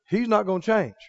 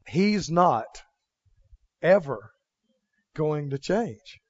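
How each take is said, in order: First: It is said at a normal speed. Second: It is said very slowly.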